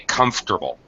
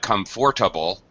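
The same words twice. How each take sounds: First: The middle syllable is dropped completely. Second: The middle syllable is fully pronounced. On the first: The speaker calls it right. "the middle syllable is dropped completely" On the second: The speaker calls it wrong. "it's not comfortable"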